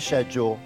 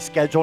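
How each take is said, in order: First: It is said with a British pronunciation. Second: It is said with an American pronunciation. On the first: "not schedule" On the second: "I'm going to say schedule"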